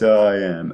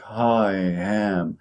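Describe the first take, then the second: First: The vowel glides in smoothly with no catch. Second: The vowel starts with a breathy h sound. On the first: "you notice there is no closure at all" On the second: "put an H, for example, before the glottal stop, like I am"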